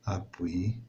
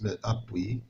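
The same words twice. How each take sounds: First: Whispered. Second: Said in the usual way. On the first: Shown as a demonstration. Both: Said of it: "بحال نقولوا ابوي دو تيت".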